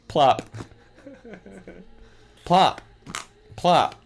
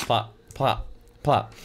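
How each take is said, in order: First: Plop each plop slowly with long pauses; spaced plops. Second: Plop plop plop rattled off fast; quick plops. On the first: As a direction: let each plop land alone. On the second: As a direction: run the three plops together. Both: Shown as a demonstration. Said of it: "It says plop three times".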